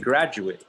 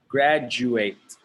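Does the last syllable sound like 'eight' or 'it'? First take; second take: it; eight. First: The last syllable sounds like 'it'. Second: The last syllable sounds like 'eight'. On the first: It means a person who finished school. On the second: It means to finish school.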